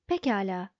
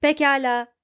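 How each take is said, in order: First: Gently lowered, tender reassurance; encouraging, compassionate. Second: Loud, resounding robot reply; ringing, cracked bell. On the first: Trillian soothing the gloomy robot, encouraging and compassionate. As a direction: humour him kindly, with a touch of hope. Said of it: "dedi Trillian umut verici, şefkatli bir sesle". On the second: Marvin yielding after being yelled at, ringing out. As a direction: ring out like a hard-struck bell. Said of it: "sertçe vurulmuş büyük ve çatlak bir çan gibi çınlayarak". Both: A narrator's reading.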